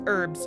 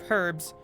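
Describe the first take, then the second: First: The word begins without an h sound. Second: The word begins with an audible h sound. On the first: "if it's pronounced herbs" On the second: "instead of herbs"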